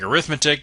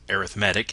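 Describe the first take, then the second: First: The stress is on the second syllable. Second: The stress is on the third syllable. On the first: It is the noun meaning calculation. "the word looks like arithmetic" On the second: It is an adjective describing the sequence. "if it is an adjective, we pronounce it as arithmetic"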